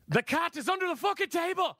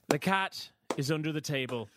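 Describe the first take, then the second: First: It is said with furious frustration. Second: It is said with exasperation.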